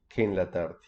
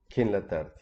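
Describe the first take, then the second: First: Que and en merge into one syllable. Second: The same.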